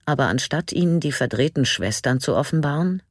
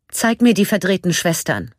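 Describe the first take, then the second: First: Said in the usual way. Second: Breathless, rushed command; außer Atem. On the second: A narrator's reading. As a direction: gasp it out, short of breath. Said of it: "so schnell ging ihr Atem". (atemlos hervorgestoßen)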